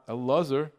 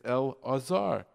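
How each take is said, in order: First: The syllables run together smoothly with no break. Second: A break separates the syllables before the ayin vowel. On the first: The speaker calls it wrong. "It's not" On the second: The speaker calls it right. "You have to have the ayin in there"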